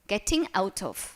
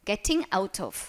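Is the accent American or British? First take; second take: British; British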